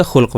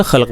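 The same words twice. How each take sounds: First: خلق said as khulq, u after the kh; خلق with a short u: khulq, meaning good manners; khulq with pesh. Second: خلق said as khalq, a after the kh; خلق with a short a: khalq, meaning creation; khalq with zabar. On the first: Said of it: "اگر ہم اس کے اوپر پیش لگا دیتے ہیں". (خلق پیش کے ساتھ: خُلق) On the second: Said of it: "اگر اس کے اوپر ہم زبر لگا دیں". (خلق زبر کے ساتھ: خَلق) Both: Shown as a demonstration.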